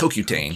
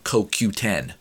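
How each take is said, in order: First: The word ends with the sound 'tane'. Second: The word ends with the sound 'ten'. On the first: The speaker calls it wrong. "So I'm just saying it wrong" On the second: The speaker calls it right. "CoQ10, not CoQtane"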